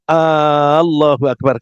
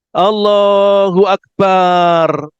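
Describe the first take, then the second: First: The first vowel a is held long. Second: The vowel in ba is held long. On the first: It turns into a question, asking whether God is great. "A-nya panjang" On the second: It changes the word to mean drum. "Banyak panjang"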